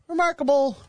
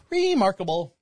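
First: Remarkable said high and exclaimed. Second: Said in the usual way. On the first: Shown as a demonstration. Host exclaims remarkable high to listeners. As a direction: pitch remarkable way up, then let it fall.

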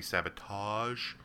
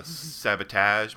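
First: "sabotage" slow, last A as in "father"; standard pronunciation. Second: "sabotage" slow, last A as in "cat"; flat-A pronunciation. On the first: Director gently suggesting a correction, "sabotage" with AH ending. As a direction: stretch "sabotage" to sab-uh-TAHZH, rising. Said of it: "but this time instead of". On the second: Director quoting the actor's wrong take, flat-A "sabotage". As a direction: stretch "sabotage" to sab-uh-TAAZH with flat A. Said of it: "you can hear the director say". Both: Retold or imitated.

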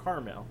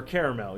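First: "caramel" as CAR-mel; two-syllable pronunciation. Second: "caramel" as CARE-uh-mel; three-syllable pronunciation. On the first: Co-host quotes the candy ad word, "caramel" as CAR-mel. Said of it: "you're like". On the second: Co-host gives the alternative, "caramel" as CARE-uh-mel. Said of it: "Yeah, or". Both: Shown as a demonstration.

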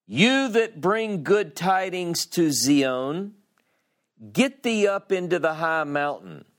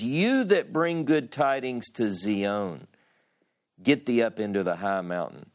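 First: Proclaiming herald. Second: Said in the usual way. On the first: Acted. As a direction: call it out like a herald from a mountain. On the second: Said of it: "in my English it says".

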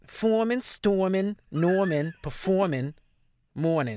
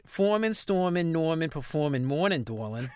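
First: New Orleans Yat, each word set apart; Yat accent. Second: Yat list capped with an affectionate local tag; Yat accent with Dorlin. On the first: Showing the co-host the five stages, New Orleans Yat accent. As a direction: list them in a Yat accent, starting high and stepping down. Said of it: "done this in a Yat accent". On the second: Redoing the stages with Dorlin at the end, Yat accent. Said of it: "you gotta say Dorlin at the end". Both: Shown as a demonstration.

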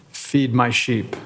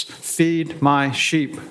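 First: Said in the usual way. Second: "Feed my sheep" very slow with weight on "my"; "my" stressed, each word spaced and deliberate. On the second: Shown as a demonstration. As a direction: lean hard on "my", drawing the words out. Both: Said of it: "The emphasis".

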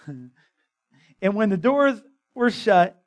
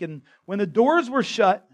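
First: Slow, laughing through the verse again; chuckling as you repeat the line; laughing reread. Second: Said in the usual way. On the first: Real, not acted. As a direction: reread it slowly while laughing at yourself.

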